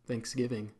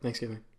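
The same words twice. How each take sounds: First: The word is said more slowly. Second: The word is said at a normal pace.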